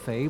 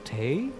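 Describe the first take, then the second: First: The name begins with an F sound. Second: The name begins with a T sound. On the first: The speaker calls it wrong. "have I been saying it wrong all these years? That it's not the Red Wizards of Fey" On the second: The speaker calls it right. "but of Tay?"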